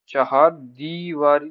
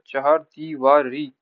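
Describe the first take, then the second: First: चहार दीवारी with a long 'dee'; rejected form. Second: चहार दीवारी slowly, syllable by syllable; correct vowel marks. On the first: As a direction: say चहार दीवारी as the wrong example, long first 'ee'. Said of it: "नहीं होता". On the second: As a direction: spell out चहार दीवारी by sound, ending in long 'ree'. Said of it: "बढ़िए की मात्रा". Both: Shown as a demonstration.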